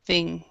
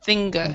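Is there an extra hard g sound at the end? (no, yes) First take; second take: no; yes. First: It ends softly with no added g sound. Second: It ends with an added hard g sound. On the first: The speaker calls it right. "the thing is not very strong" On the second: The speaker calls it wrong. "extra sound at the end of the g thing"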